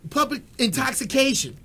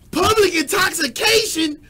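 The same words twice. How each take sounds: First: Said in the usual way. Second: Slow, loud, high disbelief on public; repeating the charge, outraged and loud; outraged shout. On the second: Real, not acted. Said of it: "let me calm down".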